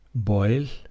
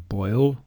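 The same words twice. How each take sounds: First: The final L is light and unvoiced. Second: The final L is dark and voiced. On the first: The speaker calls it wrong. "Don't say boil" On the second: The speaker calls it right. "say boil"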